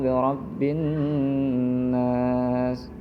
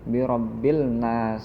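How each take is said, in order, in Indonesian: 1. Bunyi l menyatu dengan n yang ganda. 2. Bunyi l dibaca sebelum n. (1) "qul a'udzu birabbin nas" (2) "enggak birabbil nas ya, enggak"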